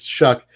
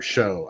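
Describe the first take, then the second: First: The name ends in a k sound. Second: The name ends in a vowel sound. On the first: The speaker calls it right. "It's Old English and it's Shuck. Spell Shuck like it is. like S H U C K" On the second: The speaker calls it wrong. "I can't stand the pronunciation of Tyler Show"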